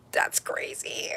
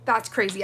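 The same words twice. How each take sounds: First: Slow, breathless whisper of awe; awed whisper. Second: Said in the usual way. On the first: Real, not acted. Staring at the glitter gel, a slow awed whisper. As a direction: whisper it slowly, stunned.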